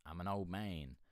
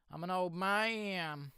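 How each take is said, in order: First: Said in the usual way. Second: High, slow put-on old man voice; mock old man. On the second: Playing an old man after saying it plain. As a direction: drag it out like a creaky old geezer.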